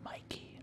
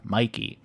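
First: Hushed, voiceless whisper; very soft imitated whisper. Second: Said in the usual way. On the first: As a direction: whisper it like a secret prompt. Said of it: "they whisper". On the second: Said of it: "Or they mouth".

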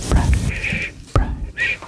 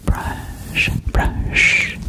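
The two takes are said the same way.

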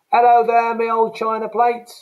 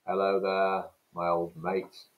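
First: Loud, high Cockney hail; loud Cockney greeting. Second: Said in the usual way. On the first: Shown as a demonstration. Teacher greeting an imagined mate in Cockney, loud and high. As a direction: call out to your old mate, cheerily.

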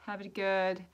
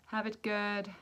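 The two takes are said the same way.

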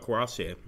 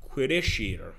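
First: Karasi with a French-style silent R ending; own usual pronunciation. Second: Quirishir sounded out with a "kw" start; practising the pronunciation. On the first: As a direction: say Karasi as "ka-ra-see-ay", not "sheer". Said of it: "I've always thought Karasi". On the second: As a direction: test Quirishir carefully, ending in "sheer". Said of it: "is pronounced Quiroshir". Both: Shown as a demonstration.

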